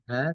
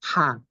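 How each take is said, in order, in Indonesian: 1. Huruf h diucapkan tanpa hembusan udara yang terdengar. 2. Huruf h diucapkan dengan udara yang keluar deras. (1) "Bukan ha" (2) "tapi ha. Ha itu ada udara keluar"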